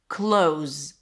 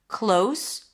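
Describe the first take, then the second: First: The word ends with a Z sound. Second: The word ends with an S sound. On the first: It means to shut. "The only difference here is the S versus Z" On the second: It means near. "The only difference here is the S versus Z"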